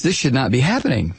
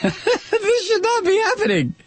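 First: Said in the usual way. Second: Very high, squealing with laughter; incredulous laughter. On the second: Real, not acted. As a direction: repeat it helpless with laughter. Laughing at newspaper's understatement.

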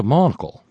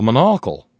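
First: "monocle" said MON-o-cle, stress on first syllable. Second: "monocle" said mo-NOC-le, stress on second syllable; "monocle" with the middle syllable NOC stressed. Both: Shown as a demonstration. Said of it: "All depends on which syllable you put the emphasis".

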